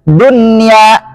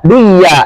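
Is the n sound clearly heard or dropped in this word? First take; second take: clearly heard; dropped. First: The n sound is pronounced clearly. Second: The n sound is dropped and merged. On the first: The speaker calls it right. "harus dibaca idhar" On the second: The speaker calls it wrong. "Nggak boleh baca duya"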